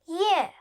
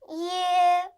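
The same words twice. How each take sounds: First: The pitch falls sharply from high. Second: The pitch stays high and level.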